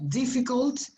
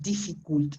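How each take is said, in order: First: The middle vowel is a short 'uh' sound. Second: The middle vowel is a full 'oo' sound. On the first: The speaker calls it right. "Es una a cortita" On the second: The speaker calls it wrong. "not difficult. It's not u"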